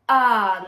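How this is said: The vowel starts with a sharp catch in the throat. "glottal attack is when your vocal folds come together first, then the breath comes out"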